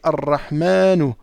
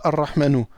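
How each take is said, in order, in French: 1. La voyelle après le m est longue. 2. La voyelle après le m est brève. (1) "on dit" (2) "On ne dit pas"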